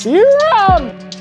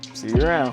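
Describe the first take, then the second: First: It is said in a put-on character voice. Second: It is said in a plain, normal voice.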